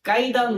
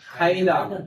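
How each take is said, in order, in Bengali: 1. প্রথম ব্যঞ্জনটি অল্পপ্রাণ 'k'। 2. প্রথম ব্যঞ্জনটি মহাপ্রাণ 'kh'। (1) "কাইদান নয়" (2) "সব খ দিয়ে ব্যবহার করবেন"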